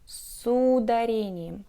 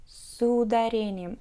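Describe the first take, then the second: Both takes have the same delivery.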